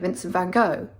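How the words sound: The name is said the American way.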